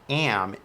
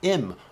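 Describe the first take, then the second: First: The word has a full, open 'a' vowel. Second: The word has a short, reduced 'i' vowel. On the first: "the am isn't am" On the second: "it's im"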